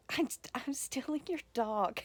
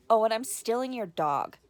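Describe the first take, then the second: First: Breathless whisper of the line; whispered quote. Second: Loud, cheeky parting shot; sassy quote. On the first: Relishing the niece's line again, whispered. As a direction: savour the line in a delighted whisper. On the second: Quoting the niece's parting line, loud and cheeky. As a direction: toss it over your shoulder like a badass girl. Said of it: "she's like". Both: Retold or imitated.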